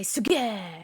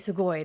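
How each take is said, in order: First: The word ends with a long 'e' sound. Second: The word ends with an 'oi' sound. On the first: A casual, masculine way of saying amazing. "a informal version of sugoi" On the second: The standard way of saying amazing. "they won't say sugoi"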